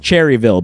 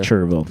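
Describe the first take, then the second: First: The name is said in full. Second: The name is said shortened, with a syllable dropped. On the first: This is how the name is written. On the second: This is how locals say the name.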